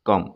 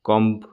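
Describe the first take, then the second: First: No b sound is pronounced at the end. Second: A b sound is pronounced at the end. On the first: The speaker calls it right. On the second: The speaker calls it wrong.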